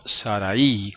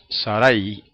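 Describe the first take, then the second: First: The final 'a' and 'i' are separate syllables. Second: The final 'ai' is one gliding syllable. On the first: The speaker calls it wrong. "y no Sarai, como dice mucha gente" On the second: The speaker calls it right. "decimos Sarai ... esa terminación es un diptongo"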